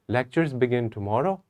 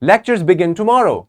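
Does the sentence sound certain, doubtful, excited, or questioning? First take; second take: doubtful; excited. First: It is said hesitantly, with doubt and confusion. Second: It is said excitedly, rising with emphasis at the end. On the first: The speaker is unsure whether it is true. "I'm not sure about it. I'm not, I'm having doubt and I'm having confusion" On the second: The speaker is thrilled about it. "With excitement, we can use our rising intonation and we have to emphasize at the end"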